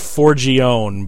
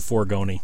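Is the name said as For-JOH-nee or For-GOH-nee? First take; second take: For-JOH-nee; For-GOH-nee. First: The name is said as For-JOH-nee. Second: The name is said as For-GOH-nee. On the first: This is how the person says his own name. The speaker calls it right. "it's Forgione" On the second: This is a form the person dislikes. The speaker calls it wrong. "he hates being called Forgoni"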